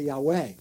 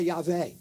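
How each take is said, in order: First: The middle consonant is a W sound. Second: The middle consonant is a V sound. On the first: A native Hebrew speaker could not say it this way. "They wouldn't be able to say Yahweh" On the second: This is how a native Hebrew speaker would say it. "Native-born Hebrew speaker would also they would say Yahweh"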